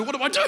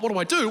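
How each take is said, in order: First: Even higher, laughing panic; the panic spikes on the repeat; second take climbs higher in mock panic; rising panic. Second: A touch of panic, higher; first panicked question, still half-held; panicking. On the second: Retold or imitated. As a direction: ask yourself in mild mock panic. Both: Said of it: "I'm freaking out".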